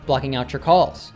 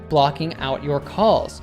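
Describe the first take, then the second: First: The t and y merge into ch. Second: The t and y stay separate sounds.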